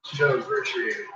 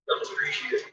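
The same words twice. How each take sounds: First: Said in the usual way. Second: Whispered repeat, no voice. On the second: Shown as a demonstration. Whispering the point again to the dog. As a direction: breathe it out as a whisper.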